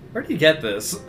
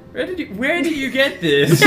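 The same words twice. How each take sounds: First: Said in the usual way. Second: Higher, laughing pompous Duke; the Duke's voice. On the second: Pretend. Duke questioning the prisoner about the sword, higher put-on voice. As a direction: raise the pitch into a preening nobleman. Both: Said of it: "I need to do the Duke's voice".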